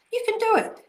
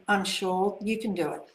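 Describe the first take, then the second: First: Excited cheer. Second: Said in the usual way. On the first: Real, not acted. Host cheering on a viewer who wants clear skin, excited and much higher. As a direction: pitch leaps much higher, a bright rallying call.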